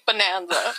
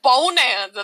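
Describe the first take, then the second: First: The first syllable is a short, reduced 'buh' sound. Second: The first syllable sounds like the word 'bone'. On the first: The speaker calls it right. "Think of banana, like Bonanza" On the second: The speaker calls it wrong. "Not Bonanza. That sounds like you're saying Bo Dallas. Like or bone"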